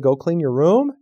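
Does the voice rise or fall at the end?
rises. The voice rises at the end.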